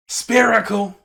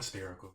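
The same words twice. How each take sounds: First: High, very loud exclamation; sudden shout. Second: Said in the usual way. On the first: Acted. Painter bursts out mid-instruction to viewers, shouted. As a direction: belt out the word suddenly.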